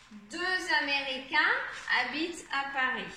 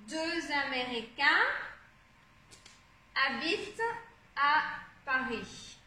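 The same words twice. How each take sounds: First: Said in the usual way. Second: "deux Américains... habitent... à... Paris" with long pauses; word by word. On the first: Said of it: "on va d'abord lire le texte". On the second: Shown as a demonstration. Teacher sounding out sentence word by word.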